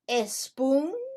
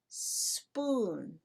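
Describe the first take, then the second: First: An extra vowel sound comes before the s. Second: The word starts directly with the s sound. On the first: The speaker calls it wrong. "Do we say a spoon" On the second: The speaker calls it right. "We say spoon"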